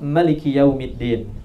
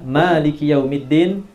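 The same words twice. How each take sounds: First: The vowel after the first m is short. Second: The vowel after the first m is long. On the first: "bisa dipendekkan" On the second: "dengan memanjangkan huruf mim"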